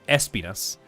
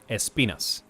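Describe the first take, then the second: First: The stress is on the first syllable. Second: The stress is on the second syllable. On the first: "In English, you do the the stress at the beginning" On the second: "in Spanish, you do the stress in the second syllable"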